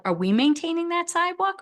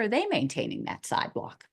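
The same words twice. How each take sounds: First: High-pitched question, contrastive weight on "we"; stress on WE. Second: Contrastive weight on "they", falling to close the question; stress on THEY. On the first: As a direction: set up the choice by leaning on "we". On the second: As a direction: offer the alternative by leaning on "they". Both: Real, not acted. Contrasting who maintains the sidewalk.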